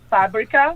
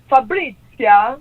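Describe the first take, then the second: First: The name is said the American way. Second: The name is said the Italian way.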